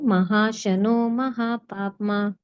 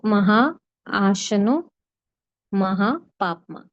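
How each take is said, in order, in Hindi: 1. शब्द तेज़ बोले जाते हैं और आपस में जुड़ जाते हैं। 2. शब्द धीरे बोले जाते हैं और अलग रहते हैं।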